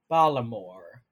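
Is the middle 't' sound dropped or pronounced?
dropped. The middle t sound is dropped entirely. "the Baltimore accent ... It's like Balamore"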